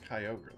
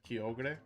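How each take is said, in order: First: It is said with English sounds, like ogre. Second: Every letter is sounded, the Spanish way. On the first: This is what the speaker believes is the real pronunciation. "I really think it's Kyogre, though" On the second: This is how Spanish speakers would say it. "in Spanish you pronounce everything"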